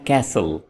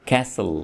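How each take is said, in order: No difference in how they are said.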